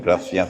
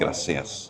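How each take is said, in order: First: It is said with a th sound, mainland Spain style. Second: It is said with an s sound, South American style.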